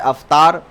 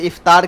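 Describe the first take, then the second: First: The word begins with an 'a' vowel. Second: The word begins with an 'i' vowel. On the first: The speaker calls it wrong. "के बजाय अफ्तार" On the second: The speaker calls it right. "इफ्तार के बजाय"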